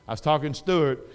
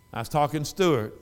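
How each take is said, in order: Both takes have the same delivery.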